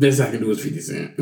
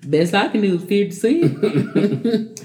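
First: Lowball pawn dealer. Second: Drawn out, slow, laughing lowball offer; slow pawn dealer voice. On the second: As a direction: stretch it out like a pawnbroker. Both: Retold or imitated. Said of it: "That didn't sound like something".

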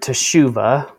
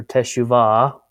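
First: Teshuva with stress on the middle SHU; teshuva, ending on an unstressed vuh; teshuva pronunciation. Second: Teshuvah stressed on the final VAH; teshuvah, ending on a long open ah; teshuvah variant pronunciation. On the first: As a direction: say teshuva as tuh-SHOO-vuh. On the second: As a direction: say teshuvah as teh-shoo-VAH. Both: Shown as a demonstration. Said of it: "How do people say it".

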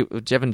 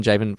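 First: "Jevon" with a short E; alternative pronunciation. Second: "Javen" with a long A; alternative pronunciation. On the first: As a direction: say "Jevon" with a JEV start. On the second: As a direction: say "Javen" with a JAY start. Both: Shown as a demonstration. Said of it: "Javen, whatever".

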